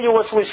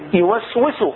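First: The vowel after the S is weak and short. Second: The vowel after the S is full and sustained. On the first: The speaker calls it wrong. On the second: The speaker calls it right.

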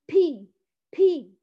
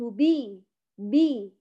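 First: Air escapes audibly with the syllable. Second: The syllable is voiced with no escaping air. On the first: The speaker calls it wrong. "انا لم اقل بي بي" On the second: The speaker calls it right. "قلت بي بي. هل خرج معي الهواء؟ ما خرج هواء"

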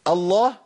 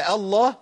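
The two takes are said the same way.

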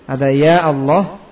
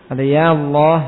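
No difference in how they are said.

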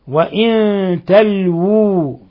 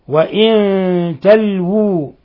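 Both takes have the same delivery.

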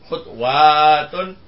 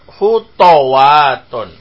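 First: The second letter carries no vowel. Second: The second letter carries an a vowel. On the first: "Bacaannya ketiga tetap sukun" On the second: "huruf yang kedua di fathah"

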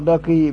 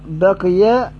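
First: The final y has no vowel. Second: The final y carries an a vowel. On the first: This is a minority reading. "بسكون الياء" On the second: This is the majority reading. "بفتح الياء"

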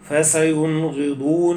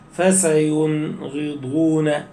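First: The sounds flow on without any break. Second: A brief break comes after the nasal sound. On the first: The speaker calls it right. "الأصل أن تقول" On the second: The speaker calls it wrong. "بعض الناس يقول إيه فسينغضون والمنخنقة، هذا خطأ، السكت اليسير هذا خطأ"

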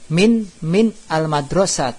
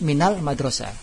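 First: The two words are said separately, unlinked. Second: The n is linked to the next word with a vowel.

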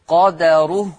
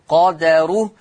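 No difference in how they are said.

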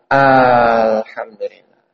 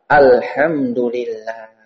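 First: The first vowel is drawn out. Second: The first vowel is short. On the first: It asks whether all praise belongs to God. The speaker calls it wrong. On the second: All praise belongs to God. The speaker calls it right.

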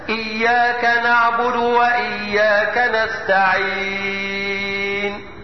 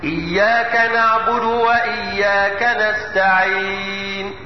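First: The last word's long vowel is held very long. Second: The last word's long vowel is held moderately. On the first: "وطوله ... ست حركات" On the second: "ووسطه بمقدار اربع حركات هكذا"

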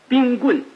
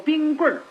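First: The last syllable ends plain, without an r-sound. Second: The last syllable ends with an r-colouring. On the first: "您看写的字声" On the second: "可是你要说话呢就得说冰棍儿"

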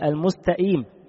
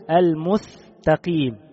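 First: The q sound is replaced by a glottal stop. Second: The s sound is replaced by a th sound. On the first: "ينطق القاف همزة" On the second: "ينطق السين ثاء"

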